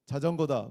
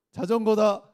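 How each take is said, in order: First: Said in the usual way. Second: "자전거다" high and very loud throughout; emphatic punch. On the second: Pretend. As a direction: call out "자전거다" in one forceful burst. Trick answer repeated forcefully.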